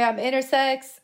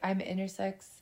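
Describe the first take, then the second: First: It is said loudly. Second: It is said quietly.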